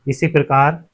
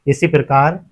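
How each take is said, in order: Both takes have the same delivery.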